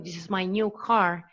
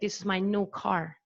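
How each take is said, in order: First: The vowel is preceded by a 'y' glide. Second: The vowel has no 'y' glide before it. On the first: "instead of saying" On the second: "dropped uh, semivowel"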